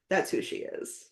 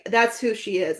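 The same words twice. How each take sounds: First: Soft whispered repeat, much quieter. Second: Said in the usual way. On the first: Shown as a demonstration. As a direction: breathe it out as a secret.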